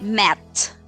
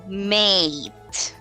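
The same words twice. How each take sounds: First: "mate" mispronounced as short "met"; learners' short vowel, met. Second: "mate" with a long, smiled A; smiling long A in mate. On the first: Teacher imitates learners' mistake, mate turned into met. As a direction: cut the long A to a short E, "met". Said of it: "because they say it". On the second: Teacher tells learners it's like smiling, long A in mate. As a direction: say "mate" through a smile, A drawn out. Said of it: "it's like you're smiling". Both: Shown as a demonstration.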